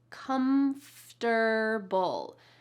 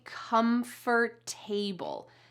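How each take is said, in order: First: The ending is reduced, with sounds dropped. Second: The ending is said fully, like 'table'. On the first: The speaker calls it right. "we reduce the sounds and say comfortable" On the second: The speaker calls it wrong. "we don't say comfortable"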